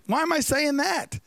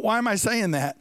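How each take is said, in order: First: Higher, baffled question to himself; puzzled surprise. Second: Said in the usual way. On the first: Retold or imitated. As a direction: raise it in disbelief at his own words. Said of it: "And then he says". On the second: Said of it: "And then his brain says".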